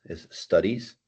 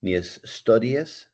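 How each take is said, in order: First: Studies with a silent e, ending in "diz"; teacher giving the right pronunciation of studies; correct studies. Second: Studies said slowly as "stu-di-es", with the e sounded; teacher showing a mispronunciation slowly; wrong studies. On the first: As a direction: say studies smoothly, with no extra vowel. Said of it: "Esa E como que suena silenciosa". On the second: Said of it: "No es I E S". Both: Shown as a demonstration.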